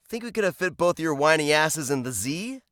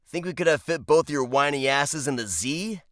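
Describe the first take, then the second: No difference in how they are said.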